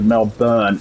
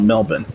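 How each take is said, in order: First: The name is said with an American pronunciation. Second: The name is said with the local pronunciation. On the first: The speaker calls it wrong. "an American trying to say the name Melbourne, they pronounce it Melbourne" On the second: The speaker calls it right. "not Melbourne"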